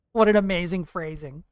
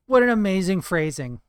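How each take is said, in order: Both takes have the same delivery.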